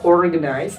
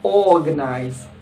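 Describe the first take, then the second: First: The R after the first vowel is pronounced. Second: The R is dropped and the vowel is long. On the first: The speaker calls it wrong. "Bacanya tidak dibaca organize" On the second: The speaker calls it right. "tapi dibaca organize. ... Langsung R-nya ngilang, masuk ke O-nya"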